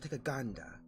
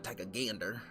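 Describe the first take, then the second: First: It is said in a British accent. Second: It is said in a Western accent. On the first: "I said gander in a in a in a British accent" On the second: "More like a West"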